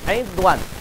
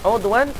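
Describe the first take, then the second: First: The first vowel is a front 'i' sound. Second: The first vowel is a rounded 'u' sound. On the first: "dengan kasrah ain" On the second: "Baca dengan dhammah ain"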